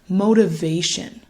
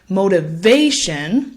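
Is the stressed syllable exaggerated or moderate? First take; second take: moderate; exaggerated. First: The third syllable is only moderately louder. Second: The third syllable is exaggerated, very loud. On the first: The speaker calls it right. "although there is still a louder and longer emphasis on that third syllable" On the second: The speaker calls it wrong. "So it won't sound like motivation"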